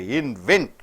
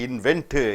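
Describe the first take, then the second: First: The word ends on the N sound. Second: The final T is clearly released. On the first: The speaker calls it right. "you have to pronounce only on N, not T" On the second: The speaker calls it wrong. "You don't say inventor"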